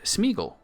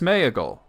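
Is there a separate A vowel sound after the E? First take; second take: no; yes. First: No A vowel is pronounced after the E. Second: A separate A vowel is pronounced after the E. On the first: The speaker calls it right. "he didn't pronounce the a at all" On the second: The speaker calls it wrong. "you would think it's Smeagol"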